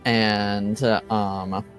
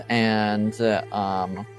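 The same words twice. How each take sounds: The two takes are said the same way.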